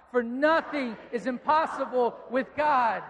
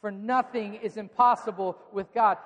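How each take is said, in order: First: Shouted slowly, full conviction; loud proclamation. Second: Said in the usual way. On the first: Shown as a demonstration. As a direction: proclaim it loud and slow to the whole room. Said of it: "Would you say it loud?". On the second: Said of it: "Would you just say that out loud?".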